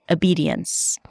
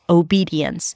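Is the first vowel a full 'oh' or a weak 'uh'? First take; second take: uh; oh. First: The first vowel is a weak 'uh' sound. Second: The first vowel is a full 'oh' sound. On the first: "But you can also put a schwa at the beginning" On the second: "The first one is O, as in go at the beginning"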